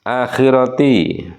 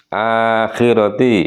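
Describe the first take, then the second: No difference in how they are said.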